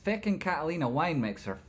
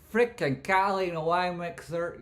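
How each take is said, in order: First: Excited, higher-pitched exclamation; worked-up catchphrase, not yet shouted; hyped catchphrase. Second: High, loud, stretched-out holler; big high-pitched hype yell; hyped catchphrase shout. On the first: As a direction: announce it with raised pitch. Hyped catchphrase, first take. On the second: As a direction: belt out the catchphrase. Hyped catchphrase, bigger second take. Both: Acted.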